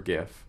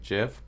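First: It begins with a hard G sound. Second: It begins with a soft G sound. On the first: "but I prefer GIF" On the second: "it's supposed to be pronounced with a soft G, like GIF"

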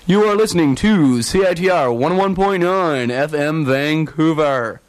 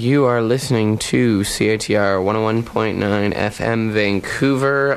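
First: It is said in a put-on announcer radio voice. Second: It is said in a plain, normal speaking voice.

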